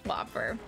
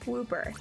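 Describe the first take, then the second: First: The first vowel is a short 'o' sound. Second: The first vowel is a long 'oo' sound. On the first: The speaker calls it wrong. "I was calling them Whopper before" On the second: The speaker calls it right. "That is how you pronounce it"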